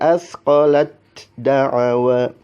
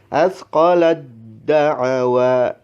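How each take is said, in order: First: The t is pronounced separately before d. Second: The t fully merges into a doubled d. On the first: The speaker calls it wrong. "tidak boleh" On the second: The speaker calls it right. "maka dibacanya"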